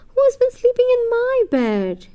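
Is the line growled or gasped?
gasped. It is said with a sharp gasp.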